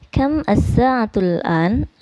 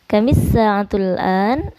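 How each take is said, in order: First: The first two words are said separately. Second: The first two words are joined with an i. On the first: "Ini ya tulisan Latinnya" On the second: "atau pakai i boleh disatukan"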